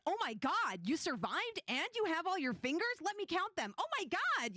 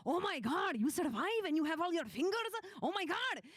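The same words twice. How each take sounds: First: High-pitched amazed outburst in own voice; excited, no accent. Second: High, loud, thrilled Punjabi uncle; excited Punjabi uncle accent. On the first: Shown as a demonstration. NPC greeting surviving adventurers, excited without the accent. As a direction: gush with astonishment, accent left off. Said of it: "without having the voice chops for it". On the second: Acted. Uncle greeting party back from dragon hunt, excited Punjabi accent. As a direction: burst out amazed in a Punjabi accent. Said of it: "he was, like, so excited".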